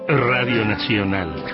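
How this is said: It is said in a friendly announcer voice.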